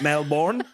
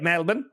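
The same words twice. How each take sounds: First: Melbourne is said with an American pronunciation. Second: Melbourne is said with an Australian pronunciation. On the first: The speaker calls it wrong. "not Melbourne" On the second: The speaker calls it right. "we say it Melbourne"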